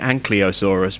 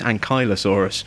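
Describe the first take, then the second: First: The L sound comes before the Y sound. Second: The L sound comes after the Y sound. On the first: The speaker calls it wrong. "I've been pronouncing this wrong ever since I was a kid. I keep calling it" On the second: The speaker calls it right. "but it's not. It's"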